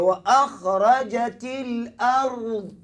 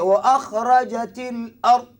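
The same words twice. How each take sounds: First: The final consonant is drawn out longer. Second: The final consonant is cut short. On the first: The speaker calls it right. "kena bunyi panjang" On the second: The speaker calls it wrong. "jangan baca"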